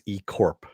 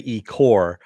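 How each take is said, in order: First: The final P sound is clearly pronounced. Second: The final P sound is left out. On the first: The speaker calls it right. "That is the correct way you say it" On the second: The speaker calls it wrong. "you don't say E Core"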